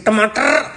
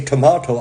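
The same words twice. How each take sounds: First: "tomato" with a short flat ah and a clipped end; own pronunciation. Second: "tomato" said toh-MAW-toh with an open aw in the middle; "tomato" with a rounded middle vowel; other pronunciation. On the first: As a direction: say "tomato" as tuh-MAH-tuh. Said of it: "I say tomato". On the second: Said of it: "You say tomato". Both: Shown as a demonstration.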